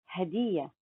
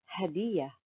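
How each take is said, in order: No difference in how they are said.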